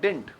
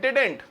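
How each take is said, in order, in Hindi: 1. इसे एक संक्षिप्त, छोटे कॉन्ट्रैक्शन की तरह बोला जाता है। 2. इसका उच्चारण सामान्य कॉन्ट्रैक्शन की तरह होता है। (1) "एक और शॉर्ट कॉन्ट्रैक्शन आजकल यूज हो रहा है" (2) "तो कॉन्ट्रैक्शन क्या है?"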